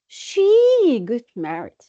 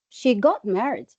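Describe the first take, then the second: First: The stress falls on the pronoun. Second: The stress falls on the verb phrase. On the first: "what if you just stress the, the, the pronoun" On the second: "You will stress got married"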